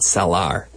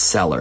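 First: The last syllable sounds like a full 'ar'. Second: The last syllable is a weak 'er' sound. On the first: The speaker calls it wrong. "not cellar" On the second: The speaker calls it right. "but it's pronounced cellar"

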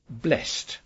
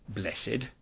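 First: The word is said as one syllable. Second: The word is said as two syllables. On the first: This is the usual modern way to say it. "In modern English, we would normally say blessed" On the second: This is the older, religious way to say it. "rather than blessed"

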